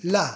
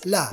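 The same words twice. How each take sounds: No difference in how they are said.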